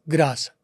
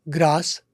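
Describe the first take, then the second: The two takes are said the same way.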